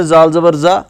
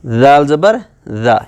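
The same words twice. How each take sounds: First: زال زبر زا with an ordinary z for ذال; undifferentiated plain z. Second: زال زبر زا slowly, each z as th in "this"; tongue tip out, soft dh for زال; soft interdental dhaal. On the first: Teacher shows the careless reading of زال, plain z. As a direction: read زال as a plain z, tongue kept in. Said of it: "وہی same pronunciation نکالی". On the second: Teacher shows the difference in زال, soft tongue-out dh. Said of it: "یہاں پر ٹنگ ہماری باہر نکل رہی ہے". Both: Shown as a demonstration.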